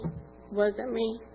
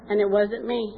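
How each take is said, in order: First: "wasn't" dropped soft and drawn out; sincere, soft and slow humble echo; quiet, slow repeat. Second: Said in the usual way. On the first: Real, not acted. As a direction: repeat it softly and slowly, letting it sink in.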